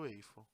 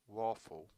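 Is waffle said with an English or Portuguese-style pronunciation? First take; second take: Portuguese-style; English. First: The word is said with Portuguese-style sounds. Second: The word is said with English sounds. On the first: This is how people commonly say it. The speaker calls it wrong. "todo mundo fala waffle" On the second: This is the original pronunciation. The speaker calls it right. "a pronúncia correta é waffle"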